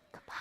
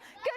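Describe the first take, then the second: First: It is said very quietly. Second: It is said very loudly.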